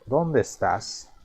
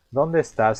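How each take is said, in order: First: Slow dónde with the accent on dó; stress on dónde. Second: Said in the usual way. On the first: Shown as a demonstration. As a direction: lean on the dó of dónde. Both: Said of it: "tiene este acento".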